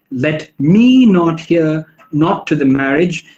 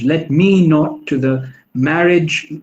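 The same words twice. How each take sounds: First: "Let me not" with me leaned on, slowly; stress on me. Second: Slow "Let me not to the marriage" with me leaned on; slowly weight me in the line; stress on me. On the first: Lecturer reading the line to show stress on me. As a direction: lean on me in the iambic line. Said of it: "the iambic pentameter forces an emphasis on me". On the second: Lecturer demonstrating the stress on me. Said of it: "The stressed syllables are me". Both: Shown as a demonstration.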